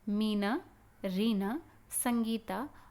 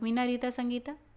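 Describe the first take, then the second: First: There is a short pause after each name. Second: The names run together without any pauses. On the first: "अब इसी चीज़ को हमने इस तरह से पढ़ा ना, क्योंकि वहाँ पर अल्प विराम लगा हुआ है।" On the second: "अगर वहाँ पर अल्प विराम नहीं होता तो"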